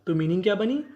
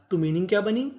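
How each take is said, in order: Both takes have the same delivery.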